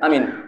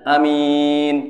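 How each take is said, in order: First: The first vowel and the m are both short. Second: The first vowel is short; the m is long. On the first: "hanya pendek, minnya pendek" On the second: "hanya cepat, minnya panjang"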